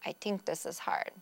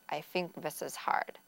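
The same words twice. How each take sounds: First: The TH sounds are said as T and D. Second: The TH sounds are said as F and V. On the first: "They could use a T or D substitution" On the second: "Or sometimes F or a V sound to substitute"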